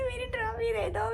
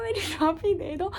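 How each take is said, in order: First: High, soft sobbing mेरी trophy दे दो; sobbing plea. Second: Softer, less high मेरी trophy दे दो, trailing off; fading sobbing plea. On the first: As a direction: beg for मेरी trophy through sobs. (रोते हुए "मेरी trophy दे दो") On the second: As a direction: let the plea for मेरी trophy die away. (धीमी होती रोती आवाज़ में "मेरी ट्रॉफी दे दो") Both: Retold or imitated. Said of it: "मैं बस रोती गई".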